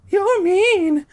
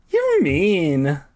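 First: Very high, loud squeaky tease; high girly tease. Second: A bit high, playful tease; higher teasing. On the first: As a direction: squeal it playfully. [name]'s high voice. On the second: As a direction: tease lightly. [name]'s high voice, first take. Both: Acted.

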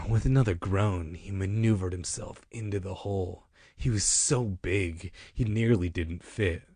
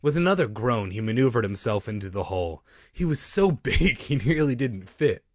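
First: Corrected reading. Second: Livelier reading with a lift on "so big"; misread take. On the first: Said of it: "let me do it how it's supposed to be read". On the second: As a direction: read it too animatedly, leaning hard on "so". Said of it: "Sorry, I read that part wrong". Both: Shown as a demonstration.

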